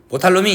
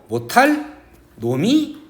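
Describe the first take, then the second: First: The words run together without a break. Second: There is a break between the words. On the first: The speaker calls it wrong. "이렇게 읽는 게 아니고" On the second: The speaker calls it right. "이렇게 끊어 읽으라는 거예요"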